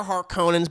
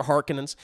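First: Harkonnens with a long OH, har-KOH-nenz; family pronunciation. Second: Harkonnens with stress on HAR, HAR-kuh-nenz; short unstressed middle in Harkonnens; movie pronunciation. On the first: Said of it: "how my mommy and daddy have always said it". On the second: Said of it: "but whatever". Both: Shown as a demonstration.

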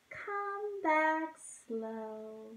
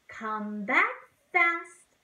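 First: Slow, soft and drawn-out. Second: Quick, bouncy come back; fast. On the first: Teacher sings the slow bird returning. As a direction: ease it back slowly. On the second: Teacher sings the fast bird returning. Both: Shown as a demonstration.

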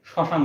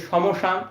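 First: শ্মশান as shoshan with a doubled শ and no ম; correct pronunciation. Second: সমশান said with the ম sounded, sɔ-mo-shan; wrong pronunciation. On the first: Teacher shows students the right way: শ্মশান with the ম silent. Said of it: "আমরা direct শ্মশান উচ্চারণ করি". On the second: Teacher shows students the wrong way: সমশান with ম sounded. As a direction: sound out সমশান with a full ম in the middle. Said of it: "এটা উচ্চারণ করি না". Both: Shown as a demonstration.

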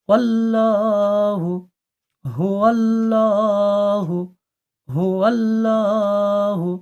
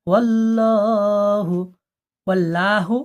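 First: Full হুয়াল্লাহু with clear hu; correct pronunciation. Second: ওয়াল্লাহু without the initial hu; dropping the হু sound, saying ওয়াল্লাহু; wrong pronunciation. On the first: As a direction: say হুয়াল্লাহু slowly, hu first. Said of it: "পড়বেন". (সঠিক উচ্চারণ: হুয়াল্লাহু) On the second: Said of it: "পড়বেন না". (ভুল উচ্চারণ: ওয়াল্লাহু) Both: Shown as a demonstration.

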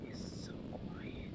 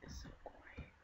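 First: Slow hushed whisper. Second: A quick hushed whisper. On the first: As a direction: breathe it out slowly, like sneaking up. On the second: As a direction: whisper it under your breath. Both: Pretend.

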